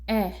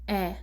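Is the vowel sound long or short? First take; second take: short; short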